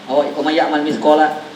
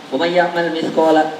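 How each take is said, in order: No difference in how they are said.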